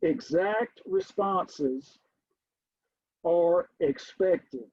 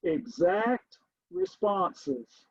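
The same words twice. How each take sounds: First: Slow, deliberate statement; measured classroom dictation. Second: Very slow, each word drawn out; slow dictation. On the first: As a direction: lay it down slowly as a rule. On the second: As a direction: dictate it slowly as you write. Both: Shown as a demonstration. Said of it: "let me write this down".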